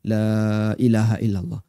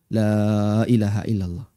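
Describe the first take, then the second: Both takes have the same delivery.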